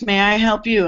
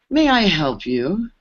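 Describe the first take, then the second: First: Firm retort turning "may I help you?" back on him; pointed comeback. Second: Slow, drawn-out, looking-down-on-you question; condescending engineer. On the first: New assistant answering the condescending engineer, firm and pointed. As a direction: flip the question back at him, confident. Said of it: "question is". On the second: Engineer sizing up the newcomer he assumes is lost, slow and condescending. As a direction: ask it slowly, as if she's clearly lost. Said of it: "turns his head sideways and goes". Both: Retold or imitated.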